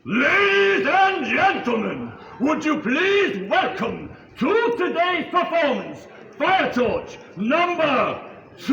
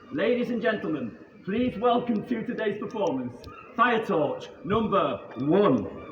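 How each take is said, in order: First: It is announced with lots of energy. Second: It is announced with little energy.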